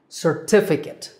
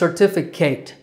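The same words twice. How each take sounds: First: The last syllable sounds like 'kit'. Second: The last syllable sounds like 'kate'. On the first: The speaker calls it right. "that last syllable is kit" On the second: The speaker calls it wrong. "mispronounce this word as certificate"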